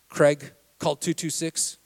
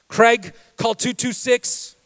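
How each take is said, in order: First: The voice sounds calm and neutral. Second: The voice sounds aggravated and intense.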